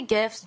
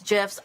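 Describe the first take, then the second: First: "gifs" with a hard g as in gift. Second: "gifs?" with a soft g, like jifs. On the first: Singer unsure how to say it, hard g. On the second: Singer unsure how to say it, soft g, questioning. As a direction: say "gifs?" starting with a j sound. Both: Shown as a demonstration. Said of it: "Is that how you say gifs?".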